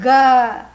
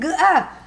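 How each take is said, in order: First: The two sounds are joined into one syllable. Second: The two sounds are said separately. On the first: The speaker calls it right. "It is one word" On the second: The speaker calls it wrong. "don't say G-A"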